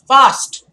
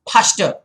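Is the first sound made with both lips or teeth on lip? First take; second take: teeth on lip; both lips. First: The first sound has upper teeth on lower lip. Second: The first sound has both lips touching together. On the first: The speaker calls it right. "The teeth touch your lower lip" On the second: The speaker calls it wrong. "when you kind of say the wrong thing, then your lips definitely"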